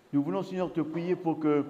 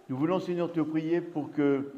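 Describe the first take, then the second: No difference in how they are said.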